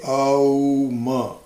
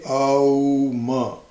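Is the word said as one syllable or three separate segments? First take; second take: three segments; three segments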